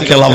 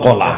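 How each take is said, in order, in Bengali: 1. প্রথম স্বরধ্বনিটি 'e' ধ্বনির মতো শোনায়। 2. প্রথম স্বরধ্বনিটি 'o' ধ্বনির মতো শোনায়। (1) "আজ থেকে আর কেলা বলবেন না" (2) "কলা বলবেন"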